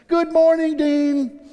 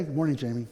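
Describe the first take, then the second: First: High, loud sing-out hello; bright acted hello, pitched way up; cheery nurse greeting. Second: Low, soft return greeting; subdued reply. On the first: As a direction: imitate a chirpy morning greeting. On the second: Retold or imitated. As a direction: answer quietly, with little energy. His subdued reply to the nurse.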